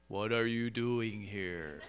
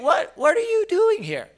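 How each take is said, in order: First: It is said flatly with no emotion. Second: It is said with strong emotional attitude. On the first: The speaker feels nothing. The speaker calls it wrong. "this monotone, non-feeling voice" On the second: The speaker is deeply moved. The speaker calls it right. "I can hear it with attitude"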